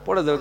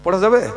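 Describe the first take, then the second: First: পড়া যাবে said flat and falling; calm falling answer পড়া যাবে; answering tune. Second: পড়া যাবে asked with a rise on যাবে; louder questioning পড়া যাবে; asking tune. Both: Shown as a demonstration. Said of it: "তাহলে ও তো পড়া যাবে না ভাই".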